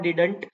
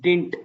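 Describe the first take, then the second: First: The middle d sound is clearly pronounced. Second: The middle d sound is dropped. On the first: The speaker calls it wrong. "It's not डिडंट" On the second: The speaker calls it right. "It's डिंट"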